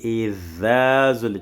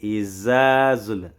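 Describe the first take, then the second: First: The consonant is a voiced 'th' sound, tongue out. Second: The consonant is a buzzing 'z' sound, tongue in. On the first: The speaker calls it right. "Au lieu de dire" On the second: The speaker calls it wrong. "tu ne mets pas la langue ... ça devient autre chose"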